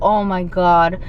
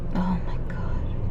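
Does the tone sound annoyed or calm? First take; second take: annoyed; calm. First: It sounds irritated and annoyed. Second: It sounds calm and kind. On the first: The speaker is bothered by the other person. The speaker calls it wrong. "if you're annoyed and you're like" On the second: The speaker is not bothered by the other person. The speaker calls it right. "just be like"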